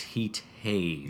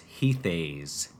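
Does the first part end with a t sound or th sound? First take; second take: t sound; th sound. First: The first part ends with a t sound. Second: The first part ends with a th sound. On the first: The speaker calls it right. "I've now learned that it's Heat Haze" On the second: The speaker calls it wrong. "I have always pronounced the song in my head as Heath Haze"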